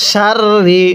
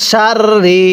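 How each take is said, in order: The two takes are said the same way.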